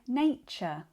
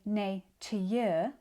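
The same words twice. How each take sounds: First: The middle consonant is a ch sound. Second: The middle consonant is a t sound. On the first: The speaker calls it right. "we say nature" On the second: The speaker calls it wrong. "We don't say nature"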